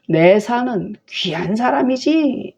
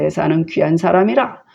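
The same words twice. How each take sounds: First: Slow, higher, mock-admiring; sarcastic. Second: Said in the usual way. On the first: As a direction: praise him so that it stings. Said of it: "뭐 이렇게 하는 거예요". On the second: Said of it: "plain reading of the text".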